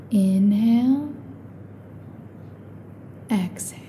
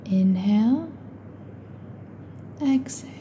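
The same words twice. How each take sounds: The two takes are said the same way.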